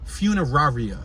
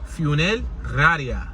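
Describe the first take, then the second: First: It is said with a plain English accent. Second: It is said with a Spanish accent. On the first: "You heard me pronounce it" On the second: "But if you say with an accent"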